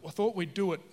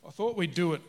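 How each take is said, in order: Both takes have the same delivery.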